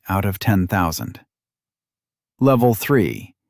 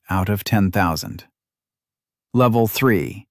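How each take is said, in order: Both takes have the same delivery.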